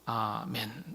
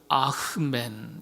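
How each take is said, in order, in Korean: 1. 첫 모음 뒤에는 h 소리가 없습니다. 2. 첫 모음 뒤에 숨소리 같은 h 소리가 납니다. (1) "시간이 흐르면서 아멘 이렇게 되었습니다" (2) "가장 정확한 발음 알려드립니다. 아멘이 아니고요. 아흐멘"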